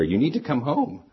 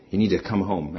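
First: Higher, urgent retold phone yell; mild mock yell. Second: Said in the usual way. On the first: Wife phoning her husband at work after a crash, mock yelling. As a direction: imitate an agitated caller, pitch climbing. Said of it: "She pretty much was yelling into the ear". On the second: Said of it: "she didn't say it as calmly as I'm telling you it".

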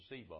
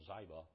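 First: Ziba said as ZEE-buh; first pronunciation of Ziba. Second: Ziba said as ZY-buh; alternative pronunciation of Ziba. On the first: Preacher naming Mephibosheth's servant, Ziba said ZEE-buh. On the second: Preacher offering another reading of the servant's name, Ziba as ZY-buh. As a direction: say Ziba with a long i, rhyming with "fiber". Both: Shown as a demonstration. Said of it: "or Ziba".

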